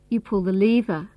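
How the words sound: The stress is on the word lever. It is the lever, not another control, that gets pulled. "means you don't pull the cord or the switch"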